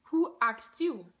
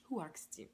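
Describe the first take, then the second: First: Slow, drawn-out mock indignation; indignant retort. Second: Very soft, under-the-breath comeback; muted retort. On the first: Wig owner challenging a nosy bystander, slow indignant retort. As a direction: stretch each word into a pointed comeback. Retold retort repeated with emphasis. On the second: Retold or imitated. Wig owner answering a nosy bystander, muted retort. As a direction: say it low and small, barely voiced.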